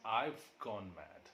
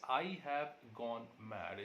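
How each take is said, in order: First: The word have is reduced to a v sound. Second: The word have is said in full. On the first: "is pronounced as I've gone mad" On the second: "The sentence I have gone mad"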